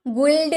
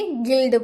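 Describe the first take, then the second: First: गुल्ड with a u; mock wrong गुल्ड; wrong u sounded. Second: गिल्ड with plain g and i; silent u. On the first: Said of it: "नहीं बोलेंगे". (गलत गुल्ड) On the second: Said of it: "गुल्ड नहीं बोलेंगे". (गिल्ड, यू मौन) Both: Shown as a demonstration.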